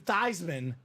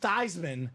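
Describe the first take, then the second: First: The name rhymes with Heisman. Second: The name rhymes with Heisman.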